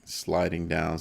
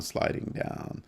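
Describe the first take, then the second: First: Said in the usual way. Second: Whisper. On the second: Real, not acted. Chart sliding down, repeated softly.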